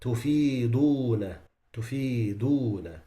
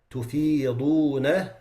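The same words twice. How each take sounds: First: Tufiduna with a plain dal instead of dad; wrong dal. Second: Tufiduna with a heavy dad; correct dad. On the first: Teacher showing the students the mistake. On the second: Quran teacher showing the correct form. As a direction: say tufiduna with the full dad sound. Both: Shown as a demonstration. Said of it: "they change the dad into a dal".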